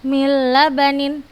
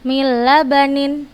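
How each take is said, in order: First: The n merges fully into a doubled l. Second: The same.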